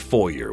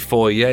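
First: The word is given its American pronunciation. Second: The word is given its Canadian pronunciation. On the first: "you say foyer" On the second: "We say foyer"

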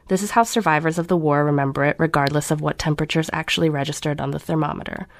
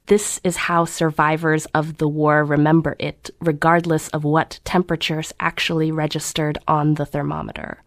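First: It is read at a plain, neutral pace. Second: Every syllable is drawn out and savored.

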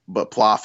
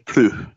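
First: The name is said the Americanized way. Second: The name is said the French way. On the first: "Plouf is the Americanized version" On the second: "the other one's like Plou"

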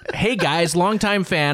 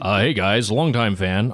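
First: It is read in a normal speaking voice. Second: It is read in a put-on character voice.

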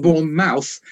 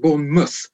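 First: The name is read the way it is spelled. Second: The name is said the local, reduced way. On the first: The speaker calls it wrong. "because it's Bournemouth" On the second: The speaker calls it right. "but you pronounce it Bournemouth"

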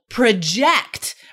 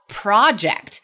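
First: The stress is on the second syllable. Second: The stress is on the first syllable. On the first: It is a verb with a different meaning. "Emphasis on the second syllable" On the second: It is a noun: a planned piece of work. "Everybody knows the noun project"

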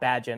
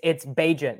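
First: The first syllable does not sound like 'agent'. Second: The first syllable sounds like 'agent'. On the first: The speaker calls it wrong. "not Bagent" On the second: The speaker calls it right. "It's Bagent"

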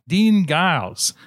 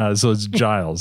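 First: The first sound is a hard G. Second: The first sound is a soft G. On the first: The speaker calls it wrong. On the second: The speaker calls it right.

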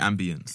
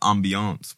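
First: The word is pronounced the English way. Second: The word is pronounced the French way. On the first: The speaker calls it wrong. "Don't say ambience. Those are the posh English people" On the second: The speaker calls it right. "I'm talking ambiance, bro. We're in France"

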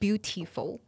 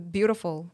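First: Taiwanese style, the second syllable has an 'ee' sound. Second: Native style, the second syllable has an 'uh' sound.

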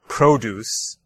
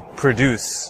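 First: The stress is on the first syllable. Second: The stress is on the second syllable. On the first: It is a noun: fruits and vegetables. "if I switch the stress to the first syllable" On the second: It is a verb: to make something. "in the verb form produce, the stress is on the second syllable"

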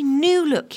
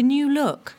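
First: The stress falls on the first word. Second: The stress falls on the second word. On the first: The speaker calls it right. "Say new look" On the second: The speaker calls it wrong. "Mum always puts the emphasis on the second word"

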